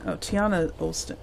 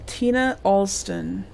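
First: Tiana said as tee-AH-nuh; "Tiana" in three syllables, tee-AH-nuh; corrected name. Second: Tina said as TEE-nuh; "Tina" read as TEE-nuh, two syllables; misread name. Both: Real, not acted.

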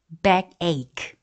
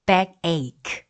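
Both takes have the same delivery.

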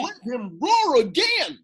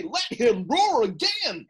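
First: Louder, higher full-throated roar; roaring shout. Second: A touch of a roar, held back; hint at a lion's roar; light roar. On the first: Acted. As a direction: roar it like a lion. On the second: Retold or imitated. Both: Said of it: "I will roar".

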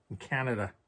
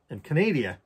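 First: Said in the usual way. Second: "Canada" said as "ca-NAY-dee-a", higher; playful made-up Canadian accent, "ca-NAY-dee-a"; mock Canadian accent. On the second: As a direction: put on a silly accent, "Canada" stressed on NAY. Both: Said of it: "what the fuck that accent is".

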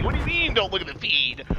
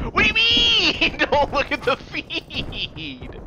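First: Said in the usual way. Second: Incredulous repeat. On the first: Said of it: "repeats the quote twice". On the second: Real, not acted. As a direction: echo the line back in disbelief. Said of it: "repeats the quote, much higher".

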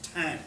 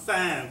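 First: "thyme" with a silent H, like "time"; "thyme" sounding just like "time"; correct pronunciation. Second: "thyme" with a TH sound at the start; "thyme" starting like "thigh"; mispronunciation. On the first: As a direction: say "thyme" starting with a plain T. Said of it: "It's pronounced thyme". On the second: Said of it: "It's spelled like thyme". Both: Shown as a demonstration.

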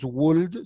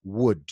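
First: "would" with an audible L, like "woold"; L wrongly pronounced. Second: "would" with no L, like "wood"; slow, correct "would", rhyming with "good"; silent L. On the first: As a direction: sound the L in "would" as a mistake. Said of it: "esta L es muda". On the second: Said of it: "Nunca se pronuncia la L". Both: Shown as a demonstration.

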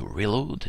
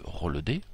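First: Reload said the American English way, ri-LOHD; "reload" with a proud mock American accent. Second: Said in the usual way. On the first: Shown as a demonstration. Minecraft tutor re-saying "reload" in an American accent. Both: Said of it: "avec un bon accent américain".

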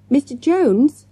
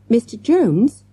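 First: Loud shout, pitched much higher. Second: Urgent questioning call, higher and louder; repeated plea. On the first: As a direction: call out across the room to the teacher. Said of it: "Morgan shouted". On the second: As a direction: tug at him, asking again. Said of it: "Morgan repeated". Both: A narrator's reading.

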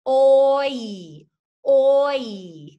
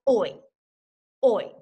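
First: Oi stretched, mouth gliding from o to i; slow, loud oi that glides between two sounds. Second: Oi said short and natural as in a word; just say oi plainly, no stretch; quick oi. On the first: Teacher showing how her mouth glides on oi. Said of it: "you can see how my mouth changes". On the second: Teacher showing oi as spoken in a word. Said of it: "when we say it in a word, we just say". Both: Shown as a demonstration.

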